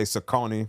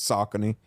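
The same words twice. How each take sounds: First: "Saucony" said suh-KOH-nee; common mispronunciation. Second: "Saucony" said SOCK-uh-nee; corrected pronunciation. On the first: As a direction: stress the middle of "Saucony", with a long OH. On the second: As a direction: stress the first syllable of "Saucony", with a short middle. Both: Shown as a demonstration. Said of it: "Y'all say Saucony, but it's Saucony".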